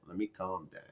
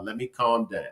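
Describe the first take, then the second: First: Almost gone, very soft and lower; calming down. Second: Soft, sinking plea to herself; calming down. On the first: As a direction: barely breathe it out to yourself. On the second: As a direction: let it fade, calm yourself. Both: Retold or imitated.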